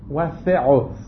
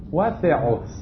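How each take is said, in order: The two takes are said the same way.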